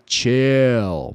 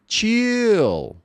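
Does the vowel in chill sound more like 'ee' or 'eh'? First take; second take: eh; ee. First: The vowel leans toward an 'eh' sound. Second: The vowel sounds like a tense 'ee'. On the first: The speaker calls it right. "mais para e" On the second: The speaker calls it wrong. "ao invés de"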